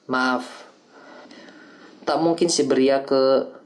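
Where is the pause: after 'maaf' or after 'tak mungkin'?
after maaf. The pause comes right after the first word. It is an apology; no exile. "Dalam pengucapan pertama, itu adalah permintaan maaf"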